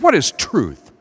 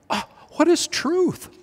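First: It sounds scoffing and dismissive. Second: It sounds like a sincere, wondering question.

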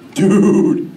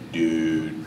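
First: It is said in a wry, half-amused tone. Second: It is said in a low, disappointed tone. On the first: Something is bogus but a bit funny. "if you see something that's totally bogus, but it's semi-humorous, then you do this" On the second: The speaker is bummed out. "if you're just bumming out, you know, you can go"

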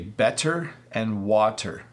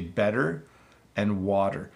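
First: The T is a clear hard T, said slowly. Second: The T is a quick D-like tap, said at normal speed. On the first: The speaker calls it wrong. "if I say it slowly, I would say" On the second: The speaker calls it right. "we say"

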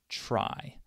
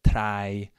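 First: The word starts with a ch-like sound. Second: The word starts with a plain t sound. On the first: The speaker calls it right. "listen to how this actually sounds. Try to make a CHR sound" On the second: The speaker calls it wrong. "He would say like try, train, like that"

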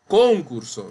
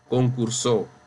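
First: The stress is on the first syllable. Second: The stress is on the last syllable. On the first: This word does not exist. "porque esa palabra no existe. Concurso no existe" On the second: This is a different, existing word. "Ahí no dice concursó, porque esa palabra existe"

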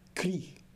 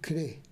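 First: The vowel is pronounced as an i sound. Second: The vowel is pronounced as an e sound. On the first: The speaker calls it wrong. "e não cri" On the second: The speaker calls it right. "nós devemos crê"

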